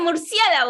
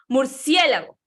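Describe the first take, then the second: First: The word is shouted in a strained yell. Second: The word is loud but controlled, not yelled. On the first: The speaker calls it wrong. "gritar es como, oye, murciélago" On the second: The speaker calls it right. "pero hablar fuerte es así como"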